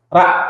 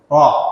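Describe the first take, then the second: First: The consonant is thin, with a clear a. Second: The consonant is heavy, with an o-like vowel. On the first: "Aslinya itu kita mengucapkannya ra, ra. Itu kalau tipis" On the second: "karena lidah itu ngangkat jadi ro"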